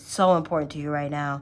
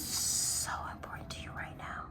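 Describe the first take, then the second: First: It is spoken in a normal voice. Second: It is spoken in a whisper.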